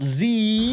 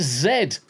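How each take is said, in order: First: Z said "ZEE", higher and drawn out. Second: Z said "ZED", ending in d. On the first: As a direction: say Z the American way, "zee". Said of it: "not Z". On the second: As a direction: say Z the British way, "zed". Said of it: "It's like it's Z". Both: Shown as a demonstration.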